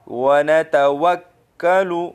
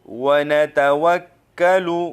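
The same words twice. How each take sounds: The two takes are said the same way.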